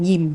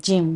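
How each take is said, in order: First: The word begins with a Y sound. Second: The word begins with a J sound. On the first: "some of us say yim, which actually also gym, but with the Y instead" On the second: "So we should just say gym"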